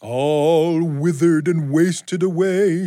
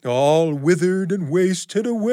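First: Slow, high, eerie ghost voice; drawn-out spooky moan. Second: Spooky ghost voice. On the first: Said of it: "she says in a spooky voice". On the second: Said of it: "in that same spooky voice". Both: Acted.

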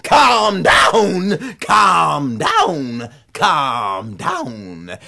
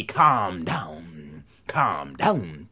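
First: Commanding call. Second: Very low, soft command; low cord voice. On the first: Son ordering the cord to stop, commanding then easing. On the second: Whipping cord telling son the magic words, low and soft. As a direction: intone it deep and quietly. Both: A narrator's reading.

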